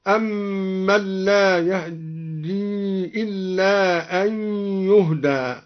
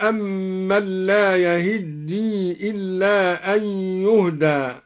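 First: يهدي with the vowel after h barely sounded; slow recitation, snatch the a after h in يهدي, double the d; hidden fatha on ha. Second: Said in the usual way. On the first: Shown as a demonstration. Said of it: "قرأ الدوري بإخفاء فتحة الهاء هكذا". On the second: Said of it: "بإخفاء فتحة الهاء".

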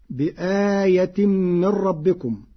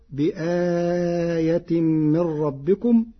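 First: Said in the usual way. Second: بآية with the vowel after the hamza held medium long, very slow; medium lengthening. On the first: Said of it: "فتكون هكذا". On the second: Shown as a demonstration. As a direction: stretch the آ in بآية moderately. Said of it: "جرى القارئ على التوسط".

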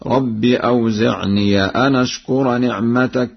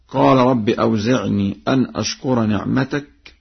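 First: "أوزعني" ending in an open -niya; fatha on ya. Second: Said in the usual way. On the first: Shown as a demonstration. Teacher demonstrates Warsh's reading, "أوزعني" said with final -ya. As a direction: recite "أوزعني" as awzi'niya, running on into the next word. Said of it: "بفتح الياء هكذا".

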